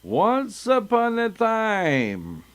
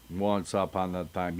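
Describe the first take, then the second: First: Higher, slow, grand "Once upon a time"; storybook opening. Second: Said in the usual way. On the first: Shown as a demonstration. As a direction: open the tale like a grand storyteller. Grand story opening, then mocked.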